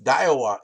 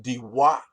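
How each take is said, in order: First: Daiwa said DIE-wah; Americanized pronunciation. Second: Diwa said dee-WAH; corrected pronunciation. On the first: Angler shows the rejected pronunciation of the reel brand, Americanized DIE-wah. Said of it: "it's not pronounced Daiwa". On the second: Angler passes on the French guy's correction, pronounced dee-WAH. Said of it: "it's actually pronounced Diwa". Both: Shown as a demonstration.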